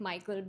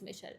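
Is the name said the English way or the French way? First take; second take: English; French. First: The name is said like English Michael. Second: The name is said the French way, Michel. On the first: "sounds like it should be pronounced like" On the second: "but then like his name is"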